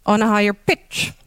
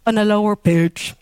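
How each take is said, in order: First: "pitch" jumps up in tone; higher pitch accent. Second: "pitch" dropped low yet stressed; lower pitch accent. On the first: Lecturer showing accented words, "pitch" raised high. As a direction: lift the voice sharply on "pitch". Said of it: "pronounced on a higher pitch". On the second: Lecturer imagining another language, "pitch" accented low. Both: Shown as a demonstration.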